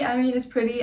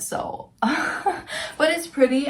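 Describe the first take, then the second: First: Said in the usual way. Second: High, slow, laughing through the words. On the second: Real, not acted. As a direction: laugh off the flaw, then defend it. Admits bag flaw, laughs it off.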